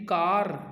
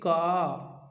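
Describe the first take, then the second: First: The word ends with an audible r sound. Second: The word ends on the long vowel, no r. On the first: The speaker calls it wrong. "न कि कार" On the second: The speaker calls it right. "बल्कि का"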